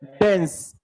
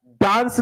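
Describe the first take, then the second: First: डांस with a short e, said "dens"; डांस pronounced "dens", short e; right vowel. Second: डांस with a long open aa, like English dance; डांस pronounced "daans", open aa; wrong vowel. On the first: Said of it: "क्या कहेंगे?". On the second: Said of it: "इसे ना डांस नहीं". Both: Shown as a demonstration.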